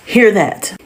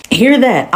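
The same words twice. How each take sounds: First: Said in the usual way. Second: HEAR pushed up higher; "Hear" biraz yüksek ve vurgulu; stress on HEAR. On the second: Shown as a demonstration.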